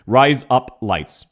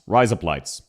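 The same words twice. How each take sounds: First: "Rise up lights" slowly, word by word; slow strong accent. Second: "Rise up lights" run together as Aussie razor blades; low, joined-up Aussie "Rise up lights"; Australian accent. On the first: Streamer demonstrating the words in an accent, slow and separated. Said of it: "in a relatively strong accent". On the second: Streamer showing how an Australian sounds, words run together low. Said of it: "how an Australian would say". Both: Shown as a demonstration.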